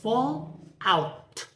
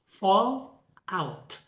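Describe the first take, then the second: First: The stress falls on the second word. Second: The stress falls on the first word. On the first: It is used as a verb. "For verb construct" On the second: It is used as a noun. "For noun"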